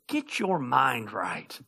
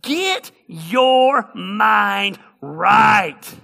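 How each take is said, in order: First: The phrase is said plainly, without soulful flair. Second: The phrase is said with soulful, rhythmic flair. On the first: The speaker calls it wrong. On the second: The speaker calls it right. "I want you to say it with like a little soul"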